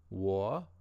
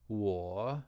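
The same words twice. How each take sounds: First: 我 said higher, rising. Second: 我 said very low and dipping. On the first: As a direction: let 我 rise. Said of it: "It's higher, it rises". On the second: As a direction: dip 我 down low. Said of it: "very low like that". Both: Shown as a demonstration.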